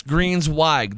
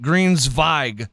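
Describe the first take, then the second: First: Greensweig with an English W, slowly; corrected W sound. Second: Greensweig with the W as a German V; German V sound. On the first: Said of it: "you're telling me I'm incorrect". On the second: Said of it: "like, a real German". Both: Shown as a demonstration.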